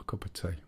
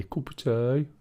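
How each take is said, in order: First: Said in the usual way. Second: "cup of tea" in a light Black Country accent, rising at the end; local Black Country accent. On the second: Shown as a demonstration. Streamer showing viewers the local way, light Black Country accent. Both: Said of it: "Or as they say around here".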